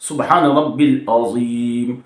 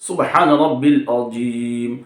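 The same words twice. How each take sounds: First: The middle word has two syllables, rab-bil. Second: The same.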